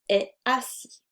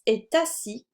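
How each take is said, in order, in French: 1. Le T de est est muet devant assis. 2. Le T de est se lie à assis.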